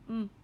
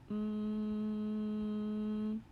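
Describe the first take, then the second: First: The sound is said quickly and short. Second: The sound is drawn out slowly. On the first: "Now say it fast" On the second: "Say it slowly"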